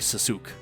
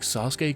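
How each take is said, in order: First: The name is said with English pronunciation. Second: The name is said with Japanese pronunciation. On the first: The speaker calls it wrong. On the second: The speaker calls it right.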